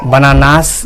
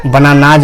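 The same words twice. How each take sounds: First: बनानास ending in an unvoiced S; बनानास with S in place of Z; wrong S ending. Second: बनानाज ending in a voiced Z/J buzz; बनानाज with its plural S voiced as J; final Z sound. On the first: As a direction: say बनानास with a plain S at the end. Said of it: "नहीं बोलेंगे". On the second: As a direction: end बनानाज on Z, never a hissed S. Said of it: "बनानास नहीं बोलेंगे". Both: Shown as a demonstration.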